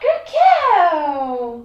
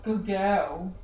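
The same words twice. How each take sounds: First: It is said in a high-pitched voice. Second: It is said in a low-pitched voice. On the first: The dog responds better to it. The speaker calls it right. "just like that" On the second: The dog responds less well to it. The speaker calls it wrong. "they respond better to high pitched than they do low pitched"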